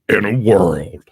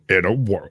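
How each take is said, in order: First: The voice is deep and growly. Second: The voice is smoother, without a growl.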